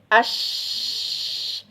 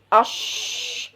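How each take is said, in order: First: The sh sound is made with relaxed lips. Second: The sh sound is made with pushed-out lips. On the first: The speaker calls it right. "dia tersebar udaranya yang tersebar udaranya deras di dalam mulut kita" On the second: The speaker calls it wrong. "kesalahan ketika mengucapkan huruf shin itu biasanya memonyongkan kedua bibirnya"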